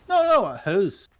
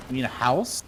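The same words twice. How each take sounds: First: Higher, insistent Canadian "hoose"; exaggerated Canadian protest; mock Canadian accent. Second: Said in the usual way. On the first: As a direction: correct them in a put-on Canadian accent. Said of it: "they say hoose". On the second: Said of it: "We say house the correct way".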